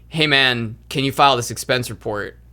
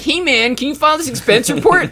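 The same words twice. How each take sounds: First: It is said in a plain, normal voice. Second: It is said in a dumb, mocking voice.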